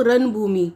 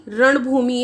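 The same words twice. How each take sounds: First: रणभूमि said as "ranbhumi", with dental n; n replacing ण. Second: Said in the usual way. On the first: Shown as a demonstration. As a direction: say रणभूमि with a plain n, no tongue curl. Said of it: "इसको क्या लिख देते हैं लोग". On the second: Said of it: "न और ण का".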